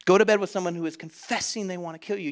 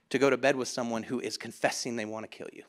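First: Quicker, with CONFESSING punched; incredulous repeat. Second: Low, soft and level; sober disbelief. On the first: Preacher repeating it for the church, incredulous stress on CONFESSING. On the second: Preacher reflecting on Delilah's bed, sober and hushed. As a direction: let it drop low and quiet. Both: Real, not acted.

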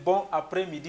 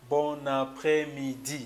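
First: "bon après-midi" with a break after bon, no n carried over; words separated. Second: "bon après-midi" linked as bo-na-près-midi, drawn out syllable by syllable; words connected. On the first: French teacher showing the wrong pronunciation, words separated. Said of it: "instead of separating, instead of saying". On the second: French teacher showing the correct pronunciation, words linked. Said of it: "you have to pronounce it". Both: Shown as a demonstration.

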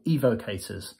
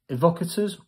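First: "Evocators" with a long opening ee and a "kay" syllable; long-e pronunciation. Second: "Evocators" with a short first vowel and stressed "vock"; short-e pronunciation. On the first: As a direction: say "Evocators" as EE-voh-kay-ters. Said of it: "So is it capital E". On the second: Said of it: "I don't know if it's right. Is it". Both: Shown as a demonstration.

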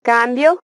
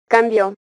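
First: "Cambio" stressed on CAM, CAM-bio; "Cambio" with a strong CAM and unstressed ending; stress on first syllable. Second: "cambió" stressed on the end, cam-BIÓ; "cambió" with light CAM, accented BIÓ; stress on last syllable. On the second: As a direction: hit the final syllable of "cambió". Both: Shown as a demonstration. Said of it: "cambia incluso el significado de una palabra".

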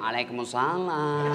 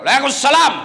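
First: Softer, slower reply, drawn out sweetly; swoony reply. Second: Louder, brisk Waalaikumsalam; stern, short reply to a caller; firm reply. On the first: Retold or imitated. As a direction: melt into the answer. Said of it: "mendayu-dayu mensahdukan suaramu". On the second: Shown as a demonstration. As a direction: answer curtly and firmly. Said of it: "Coba kalau tegas sedikit".

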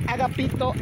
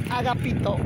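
The two takes are said the same way.

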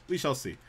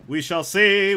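First: Said in the usual way. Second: Louder, higher playful repeat; playful declaration. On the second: Pretend. Streamer teasing viewers about the creative realm, playful declaration. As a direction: sing out the line, raised and loud.

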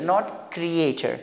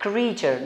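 First: Creature said kree-ay-cher, slowly; slow demo of creature as kree-ay-cher; wrong pronunciation. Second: Creature as kree-cher, one long ee; correct pronunciation. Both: Shown as a demonstration.

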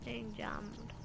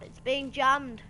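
First: Soft, resigned repeat; quiet echo. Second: Raised, drawn-out dismay; loud complaint. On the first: Gamer repeating the bad news to self, quietly. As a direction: say it softly to oneself. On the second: Gamer finding the mini-map jammed, loud dismayed cry. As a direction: cry it out slowly, louder and higher. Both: Real, not acted.

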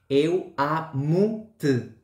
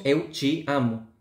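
First: "Eu amo-te" very slow, European Portuguese accent, "te" almost swallowed. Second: "Eu te amo" with "te" as "chi", slow Brazilian accent. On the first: Teacher contrasting with the Brazilian form, slow European Portuguese accent. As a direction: stretch out "Eu amo-te" like a Lisbon speaker. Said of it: "En el portugués de Portugal sería". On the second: Teacher imitating the Brazilian accent, slow "Eu te amo". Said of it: "en el portugués de Brasil decimos". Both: Shown as a demonstration.

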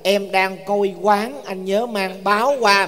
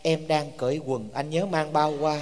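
First: Slow corrected reading, "coi quán" level then rising, "báo" rising; slowly clarify "coi quán", with a rising tone on "báo"; intended tones restored. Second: Slow, low, soft reading with "cởi quần" and "bao" in the wrong tones; misread unaccented text. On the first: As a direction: spell out the meant words "coi quán" and "báo" by their tones. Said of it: "viết không có bỏ dấu". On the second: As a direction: read out the misreading, "cởi quần" with dipping then falling tone, "bao" level. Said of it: "con đọc sao ra". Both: Retold or imitated.

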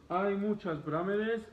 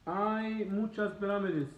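Both takes have the same delivery.

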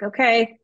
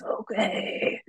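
First: Said in the usual way. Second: Put-on breathy whispered old man. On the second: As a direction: wheeze it out like a frail old man. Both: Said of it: "but in an old man voice".

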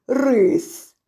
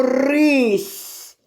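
First: "рис" ending in a hard, unpalatalized с; hard final S. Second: "рись" drawn out, ending in a soft, palatalized сь; soft final S. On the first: Teacher setting up the word contrast, "рис" with hard с. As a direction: say "рис" slowly with plain hard с at the end. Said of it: "І з твердого си". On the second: Teacher answering who ate the rice, "рись" with soft сь. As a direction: roll the р and soften the final сь in "рись". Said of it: "утворилось м'яке". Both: Shown as a demonstration.

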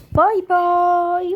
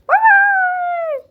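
First: Louder put-on bye-bye; playful goodbye. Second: Very high, loud squeaky bye-bye; squeaky goodbye. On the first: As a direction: wave them off with a loud silly bye. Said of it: "playful goodbye voice". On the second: Pretend. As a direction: squeak it like a cartoon. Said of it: "squeaky goodbye voice".

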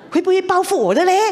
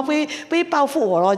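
First: Worried question. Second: Said in the usual way. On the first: Real, not acted. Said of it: "我心里很怕哦". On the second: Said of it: "我想到".

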